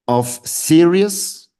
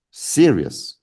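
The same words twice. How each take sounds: First: "serious" drawn out very slowly, higher and louder; "serious" stretched long with a raised, emphatic voice; stressed serious. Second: Said in the usual way. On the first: Shown as a demonstration. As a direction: lean hard on "serious" and stretch it. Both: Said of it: "So analyze the word serious".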